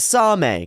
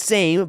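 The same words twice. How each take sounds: First: It is said as two syllables, ending in 'meh'. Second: It is said as one syllable, like English 'same'. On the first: The speaker calls it right. "but as Same" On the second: The speaker calls it wrong. "it's not pronounced as same"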